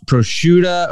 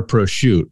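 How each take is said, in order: First: "prosciutto" ending in a short "uh": pro-SHOO-tuh; variant pronunciation. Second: "prosciutto" with the last vowel dropped: pro-SHOOT; clipped-ending pronunciation. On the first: Asking how to say it, "prosciutto" as pro-SHOO-tuh. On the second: Asking how to say it, "prosciutto" as pro-SHOOT. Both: Shown as a demonstration. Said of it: "I hear this so many different ways".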